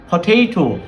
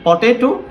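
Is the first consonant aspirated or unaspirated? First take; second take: aspirated; unaspirated. First: The first p has a puff of air. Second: The first p has no puff of air. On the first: The speaker calls it right. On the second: The speaker calls it wrong.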